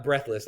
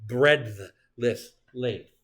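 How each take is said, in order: First: "breathless" said like "breath", with no d sound; "breathless" demoed as the mistake, rhyming with "breath"; wrong word breathless. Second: "Breadthless" said very slowly with a clear d and th; the corrected word "Breadthless", drawn out slowly so the d is heard. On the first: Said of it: "Not breathless". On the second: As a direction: spell it out by ear, "breadth-less length", unhurried. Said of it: "A line is breadthless length". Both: Shown as a demonstration.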